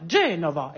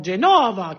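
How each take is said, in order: First: Genova accentué sur la première syllabe; accent italien correct. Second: Genova accentué sur la dernière syllabe, à la française; accent mal placé. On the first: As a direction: Genova à l'italienne, GE appuyé. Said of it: "respectent les accents toniques". (Genova prononcé correctement, accent initial) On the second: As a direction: Genova avec l'accent final à éviter. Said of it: "et non Genova". (Genova mal accentué, à la française) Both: Shown as a demonstration.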